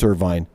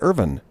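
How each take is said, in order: First: The name ends with a 'vine' sound. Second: The name ends with a short 'vin' sound. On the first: The speaker calls it wrong. "You would think it's Irvine" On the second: The speaker calls it right. "It's actually Irvin"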